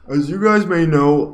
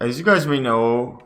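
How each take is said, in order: First: It is said in an imitated, put-on voice. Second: It is said in the speaker's own voice.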